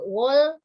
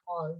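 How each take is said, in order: First: The word starts with a clear 'w' sound. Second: The word starts without any 'w' sound. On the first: The speaker calls it wrong. "banyak yang baca uh, whole itu menjadi uh, wall" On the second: The speaker calls it right. "cara membacanya whole. Jadi W-nya tidak di, uh, kedengaran dibaca"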